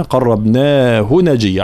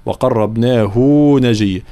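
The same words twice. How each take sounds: First: قربناه recited with long naa but short final hu; no lengthening. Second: وقربناه with its final hu stretched to "huu"; wrongly lengthened hu. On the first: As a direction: keep the hu of قربناه short before نجيا. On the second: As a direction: show the mistake: hold the hu before نجيا. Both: Shown as a demonstration. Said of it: "علاش ما مديناهاش هنا؟".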